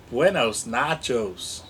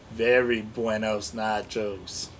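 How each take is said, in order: First: Buenos nachos in a hammed-up Spanish lilt, falling; mock Spanish accent. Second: Very buenos nachos lower and softer, Very stressed; lower mock Spanish accent. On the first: Toy voice joking to the camera in mock Spanish. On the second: Repeating the joke to the camera, lower mock Spanish. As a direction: lean on Very, then the mock Spanish.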